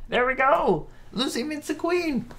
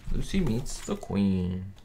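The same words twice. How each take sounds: First: Very high, squeaky sing-out announcement; playful high voice. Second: Said in the usual way. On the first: Pretend. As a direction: pipe it up high in a silly voice. Announcing the episode title playfully.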